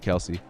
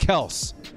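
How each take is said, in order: First: The name is said as two syllables. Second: The name is said as one syllable. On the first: This is how most people have been saying it. The speaker calls it wrong. "I'm still going to call him Kelsey" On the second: This is how the player says his own name. The speaker calls it right. "It's Travis Kels, I think, is how he says his name"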